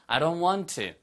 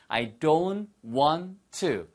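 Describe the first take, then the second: First: It is said at a faster pace. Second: It is said at a slow, careful pace.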